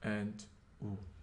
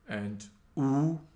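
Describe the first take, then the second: First: The vowel is said on a low pitch. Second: The vowel is said on a high pitch. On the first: "The low tone" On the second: "let's see how the high tone is pronounced"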